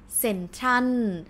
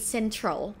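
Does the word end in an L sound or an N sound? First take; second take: N sound; L sound. First: The word ends with an N sound. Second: The word ends with an L sound. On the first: The speaker calls it right. "We say central. Because L or loling for us is no nu sound" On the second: The speaker calls it wrong. "We don't say central"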